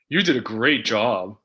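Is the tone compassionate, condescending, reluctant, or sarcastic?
sarcastic. It is said in a sarcastic tone. The speaker means the opposite of the praise. "Sarcastic would be"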